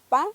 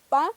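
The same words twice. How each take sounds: Both takes have the same delivery.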